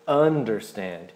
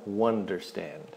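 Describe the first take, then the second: First: The word begins with a plain vowel sound. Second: The word begins with an added W sound. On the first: The speaker calls it right. "é understand" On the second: The speaker calls it wrong. "não existe understand sem W na frente"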